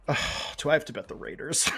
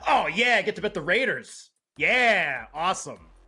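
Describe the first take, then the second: First: It sounds reluctant and weary. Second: It sounds excited and eager.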